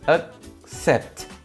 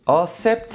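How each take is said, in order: First: A k sound is heard before the s. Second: No k sound is heard before the s. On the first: The speaker calls it right. "여기 C 두 개 있으니까 Accept, 그 소리 있어야 돼요" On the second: The speaker calls it wrong. "Accept 하면 안 돼요"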